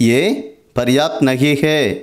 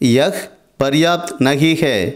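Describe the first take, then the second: First: The first word is reduced to 'yeh'. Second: The first word is said in full as 'yah'. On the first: This is the casual spoken form. "பேசும்போது" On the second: This is the standard form. "சொல்லணும்"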